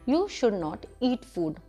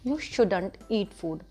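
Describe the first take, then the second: First: Should not is said as two full words. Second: Should not is contracted into one word.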